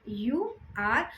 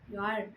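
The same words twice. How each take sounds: First: Two separate full words are said. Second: The words merge into one short syllable. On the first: "पूरा जब हमने लिखा" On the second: "जब इसको हम कॉन्ट्रैक्शन के रूप में पढ़ेंगे"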